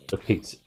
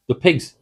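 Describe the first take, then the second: First: Said in the usual way. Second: THE PIGS called out high and loud; alarmed shout. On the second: Real, not acted. Gamer spotting zombie pigs, alarmed loud shout. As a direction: yell a warning at the pigs.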